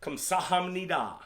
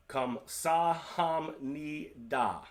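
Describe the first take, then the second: First: Slow "Kamsahamnida", kahm-sah-hahm-nee-dah; formal Korean thanks. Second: "Kamsahamnida" drawn out syllable by syllable; very slow demo. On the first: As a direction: model each syllable slowly. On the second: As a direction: stretch every syllable of "Kamsahamnida". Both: Shown as a demonstration. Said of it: "the more formal way of saying thank you".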